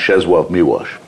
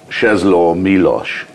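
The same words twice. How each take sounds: First: The special L is said as a W. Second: The special L is said as a plain L. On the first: "but it's pronounced" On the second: "it's spelled"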